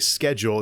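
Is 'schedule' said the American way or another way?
American. The word is said in the American way. "us Americans say schedule"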